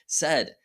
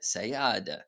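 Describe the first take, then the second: First: The word is said with its normal pronunciation. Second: The word is sounded out following its spelling. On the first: The speaker calls it right. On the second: The speaker calls it wrong.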